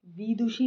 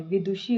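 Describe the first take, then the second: First: विदुषी with first vowel as long ee; mistaken long vowel. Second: Said in the usual way. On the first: Shown as a demonstration. Teacher repeating the error, mistaken long vowel. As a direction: lengthen the वि of विदुषी. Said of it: "नहीं होता है". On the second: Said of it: "होता है".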